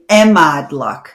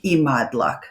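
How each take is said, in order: First: The word is pronounced in a deliberately distorted way. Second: The word is pronounced in the standard way. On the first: It says I love you in a playful, indirect way. "she mispronounced it on purpose" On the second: It says I love you plainly. "She'd never say imádlak"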